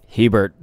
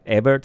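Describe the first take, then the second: First: The name is said with an English-style pronunciation. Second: The name is said without an English-style pronunciation. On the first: "I feel like I'm a little more uh, Anglo pronouncing it like that" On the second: "Is that how I would say it?"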